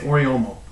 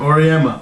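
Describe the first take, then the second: First: The name is said as Oriomo. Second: The name is said as Auriemma.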